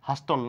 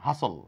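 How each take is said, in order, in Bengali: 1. এই শব্দে 't' এর উচ্চারণ হয়। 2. এই শব্দে 't' এর উচ্চারণ বাদ পড়ে।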